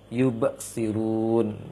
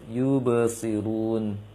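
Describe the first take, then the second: First: The bouncing consonant is cut off with a break. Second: The bouncing consonant flows smoothly into the next sound. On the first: The speaker calls it wrong. "terputusnya huruf kokolah" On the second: The speaker calls it right. "seharusnya dalam bacanya"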